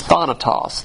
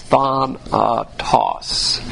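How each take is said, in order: First: Said in the usual way. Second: "thanatos" drawn out in three slow, separate syllables. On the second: Shown as a demonstration. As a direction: sound out "thanatos" very slowly, part by part. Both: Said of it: "And this is thanatos".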